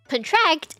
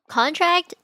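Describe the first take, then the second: First: The stress is on the second syllable. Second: The stress is on the first syllable. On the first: It means to shrink or tighten. "you f- emphasize the second syllable" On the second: It names a document. "that sounds like a noun because you emphasize the first syllable"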